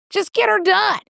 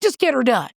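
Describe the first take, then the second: First: JUST GET HER DONE pitched way up, emphatic; higher, insistent "Just get her done"; emphatic pep talk. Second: Said in the usual way. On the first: Real, not acted. Repeats advice with more force.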